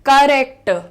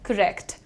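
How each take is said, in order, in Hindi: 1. शब्द कठिन और ज़ोर से बोला गया है। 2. शब्द आसानी और नरमी से बोला गया है। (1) "अक्सर लोग कहते हैं करेक्ट" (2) "इतना हार्ड नहीं करना है, इजी करके देखते हैं"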